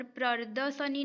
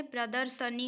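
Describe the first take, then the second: First: प्रदर्शनी said as prardasani, r moved before d; teacher sounding out the misspelt प्रदर्शनी; wrong form. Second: प्रदर्शनी said clearly as pradarshani; teacher giving the right प्रदर्शनी, r after d; correct form. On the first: Teacher to students, showing the wrong spelling: प्रदर्शनी as prardasani. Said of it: "प्रदर्शनी नहीं होता है". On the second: Teacher to students, confirming the right spelling: प्रदर्शनी as pradarshani. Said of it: "प्रदर्शनी होता है". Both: Shown as a demonstration.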